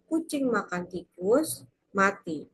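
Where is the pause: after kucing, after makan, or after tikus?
after tikus. There is a pause after tikus.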